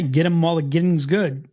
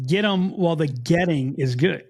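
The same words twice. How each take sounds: First: "Get" said like "git" with her regional vowel; "Get 'em while the getting's good." with a "git" sound; Maryland-style "Get" in the phrase. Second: Said in the usual way. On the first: Shown as a demonstration. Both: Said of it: "You know what I say?".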